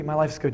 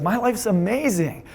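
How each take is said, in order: First: Understated, matter-of-fact life report; unenthused. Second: Higher, drawn-out delight on amazing; happy, excited. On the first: Coach showing how you wouldn't describe a perfect life, unenthused. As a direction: toss it off with little enthusiasm. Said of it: "you wouldn't be". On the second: Coach showing how you'd describe a perfect life, excited. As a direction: stretch it out with excitement. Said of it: "You'd be happy. You'd be excited". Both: Shown as a demonstration.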